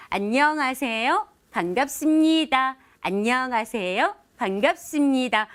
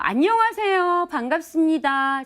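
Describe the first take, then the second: First: "안녕하세요" slow with a rounded lifting end, "반갑습니다" drawn out gently; round soft greeting. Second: "안녕하세요" punched out high and loud, slow and square; blunt straight greeting. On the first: Speaker leads viewers through a rounded friendly greeting, slow and gentle. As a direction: let the greeting curve like drawing a circle. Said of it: "아주 동글동글하게 얘기하는 거예요". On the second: Speaker demonstrating a blunt greeting to viewers, straight and hard. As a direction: greet them flat-out direct, no curve. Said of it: "아주 직선적인 말인데요". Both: Shown as a demonstration.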